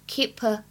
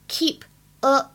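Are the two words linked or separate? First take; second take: linked; separate. First: The two words are linked into one. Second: The two words are said separately.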